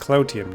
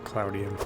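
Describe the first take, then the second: First: The consonant before '-ium' is a t sound. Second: The consonant before '-ium' is a d sound. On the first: The speaker calls it right. "it's cloutium, not cloudium" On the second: The speaker calls it wrong. "not cloudium"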